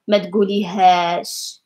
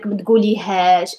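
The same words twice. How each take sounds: First: The phrase is drawn out and lengthened. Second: The phrase is said at normal length.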